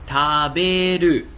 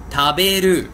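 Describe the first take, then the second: First: Taberu, slowly and syllable by syllable; slow taberu down so students catch it; slow repeat. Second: Taberu, said clearly as a model word. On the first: Teacher repeating for learners, slow and careful. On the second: Teacher modelling the verb for students, clear. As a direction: say taberu crisply for the class. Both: Shown as a demonstration. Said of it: "por exemplo".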